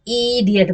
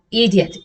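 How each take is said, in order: First: इडियट with the opening ee dragged out; exaggerated long start on इडियट; overlong first vowel. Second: इडियट with a short, easy first i; brief opening vowel in इडियट. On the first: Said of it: "ना कि इडियट बोलते हैं". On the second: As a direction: say इडियट without stretching the start. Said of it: "ना कि". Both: Shown as a demonstration.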